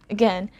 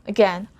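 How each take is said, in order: Both takes have the same delivery.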